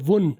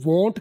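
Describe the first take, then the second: First: The final t sound is dropped entirely. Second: The final t sound is clearly pronounced. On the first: "टी के बगैर बोले वुन तो ये वीक reduction है" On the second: "टी के साथ तो ये स्ट्रॉन्ग रिडक्शन है"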